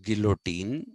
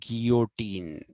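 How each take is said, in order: First: The double L is said as an L sound. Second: The double L is said as a Y sound. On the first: The speaker calls it wrong. "which everybody calls guillotine" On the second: The speaker calls it right. "is actually guillotine, the pronunciation"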